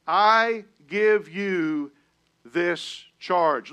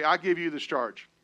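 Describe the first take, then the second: First: I give you stretched slow, falling on charge; slow emphatic charge. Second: Said in the usual way. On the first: Shown as a demonstration. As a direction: weigh every word of I give you this charge. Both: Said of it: "Look at your neighbor and say".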